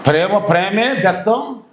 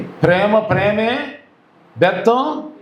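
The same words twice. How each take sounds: First: ప్రేమ ప్రేమే బెత్తం said slowly as a statement, falling at the end; stated slogan. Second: ప్రేమ ప్రేమే slow, then a pause and బెత్తం rising for the crowd; prompting call. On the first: Preacher teaching the congregation a slogan, slow and falling. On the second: Preacher cueing the congregation to repeat, rising. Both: Shown as a demonstration. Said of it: "చెప్పండి".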